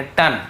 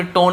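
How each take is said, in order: First: "टन" with a short uh vowel; short uh in "टन", falling; right pronunciation. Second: "टोन" with a closed long o; teacher giving "टोन" as what not to say; wrong pronunciation. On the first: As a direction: correct to "टन", like English ton. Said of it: "इसे भी टोन नहीं पढ़ेंगे". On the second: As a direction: show the mistaken long o in "टोन". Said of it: "टोन नहीं पढ़ेंगे". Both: Shown as a demonstration.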